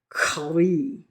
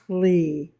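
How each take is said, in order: First: It starts with a guttural throat sound. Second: It starts without a guttural throat sound. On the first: "It's sort of a guttural sound" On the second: "I know I'm not saying that right"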